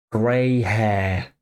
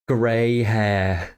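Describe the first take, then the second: No difference in how they are said.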